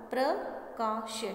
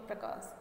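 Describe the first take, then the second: First: "प्रकाश" slowly broken as प्र, का, श; syllable by syllable. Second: Said in the usual way. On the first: Shown as a demonstration. Teacher building the word for pupils, "प्रकाश" slowly sounded out in pieces. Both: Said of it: "इसका उच्चारण कैसे हुआ".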